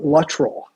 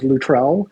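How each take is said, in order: First: The surname is pronounced the plain English way. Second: The surname is pronounced the French way. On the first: This is how his family says it. "everybody in my family pronounces my name" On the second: This is how French chefs say it. "so many chefs tell me that my last name is Luttrell"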